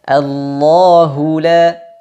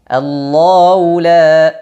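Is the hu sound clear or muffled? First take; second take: clear; muffled. First: The hu sound is clear with rounded lips. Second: The hu sound is muffled and unclear. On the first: The speaker calls it right. "Mesti dijelaskan" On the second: The speaker calls it wrong. "itu tidak jelas"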